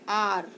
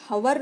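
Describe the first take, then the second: First: The word begins with a vowel sound. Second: The word begins with an h sound. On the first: The speaker calls it right. "इसको हम बोलते हैं आर" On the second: The speaker calls it wrong. "इसको हम हवर नहीं बोलते हैं"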